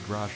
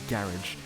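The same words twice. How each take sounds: First: Garage is said with an American pronunciation. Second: Garage is said with a non-American pronunciation. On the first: The speaker calls it right. "I'm American, so I say garage" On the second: The speaker calls it wrong. "not garage"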